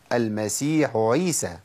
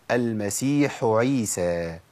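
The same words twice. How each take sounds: First: المسيح عيسى with the ح blurred into the ع; wrong merged ain. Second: المسيح عيسى with a crisp breathy ح, then a clean ع; clear ha before ain. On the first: Teacher demonstrating the wrong reading to avoid. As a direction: slur المسيح into عيسى, slowly. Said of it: "ما أقولش". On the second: Teacher demonstrating the correct Quran reading. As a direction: separate the ح of المسيح from عيسى, slowly. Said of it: "أقول". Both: Shown as a demonstration.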